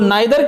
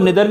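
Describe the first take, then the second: First: The first vowel sounds like 'eye'. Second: The first vowel sounds like 'ee'. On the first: "नाइदर के साथ इसको निदर भी पढ़ते हैं" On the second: "इसको निदर भी पढ़ते हैं"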